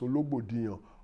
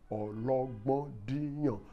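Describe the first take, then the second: First: The name is said with an anglicized pronunciation. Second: The name is said with its native tones. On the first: The speaker calls it wrong. "please don't pronounce that name as" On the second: The speaker calls it right. "The real pronunciation of that name is"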